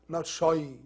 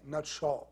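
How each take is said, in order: First: The vowel sounds like 'eye'. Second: The vowel sounds like 'aw', rounded.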